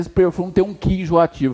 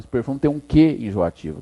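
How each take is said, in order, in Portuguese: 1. A palavra que é fraca e átona. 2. A palavra que é forte e tônica. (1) "Ficou bom? Não" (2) "Tem que ter acento"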